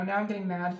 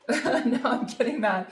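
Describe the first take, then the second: First: Said in the usual way. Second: Slow, laughing through the words. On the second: Real, not acted. Tarot reader laughing at her own mock anger. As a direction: joke about her own anger, chuckling.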